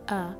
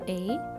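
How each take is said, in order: First: It is said like the vowel in apple. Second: It is said as the alphabet letter name. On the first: This is the sound the letter makes in words. "ولكن الساوند بتاعه A, like in the word apple" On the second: This is what the letter is called. "ال letter A اسمه A"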